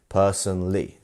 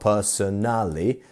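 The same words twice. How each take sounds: First: The stress falls on the first syllable. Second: The stress falls on a later syllable. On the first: The speaker calls it right. "It's our first syllable" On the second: The speaker calls it wrong. "It's not personally"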